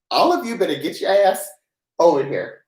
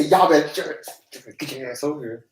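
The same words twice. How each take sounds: First: Said in the usual way. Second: Midwest y'all. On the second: Shown as a demonstration. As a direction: lean into a lazy Midwest y'all. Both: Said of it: "You say".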